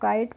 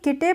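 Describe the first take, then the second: First: It is said as one syllable, kite. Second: It is said as two syllables, ki-te. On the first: The speaker calls it right. "इसको काइट पढ़ते हैं" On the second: The speaker calls it wrong. "नहीं इसको किटे नहीं पढ़ते हैं"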